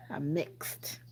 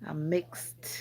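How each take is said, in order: First: Soft whispered repeat. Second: Said in the usual way. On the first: Real, not acted. Streamer explaining her heritage to chat, whispered. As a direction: whisper it like a secret.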